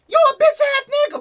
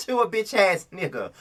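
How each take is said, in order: First: Very high, fast shriek; screaming. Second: Same insult, much softer, at usual pitch; quieter repeat. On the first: Vlogger shrieking at a reality star, screaming. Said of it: "the way I screamed and yelled". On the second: Vlogger repeating the insult to the star, quieter. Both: Real, not acted.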